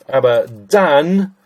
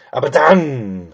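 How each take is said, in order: First: Said in the usual way. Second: Slow, weighty, darkly dramatic "Aber dann"; "Aber dann" drawn out with mock doom. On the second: Real, not acted. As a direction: say "Aber dann" like an ominous warning. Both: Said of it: "it sounds dramatic".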